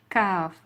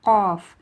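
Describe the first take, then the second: First: "Kaf" with a flat, open mouth. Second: "Qaf" loud and round from the back of the throat; deep qaf. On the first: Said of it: "It's more flat". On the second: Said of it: "from the back of the throat". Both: Shown as a demonstration.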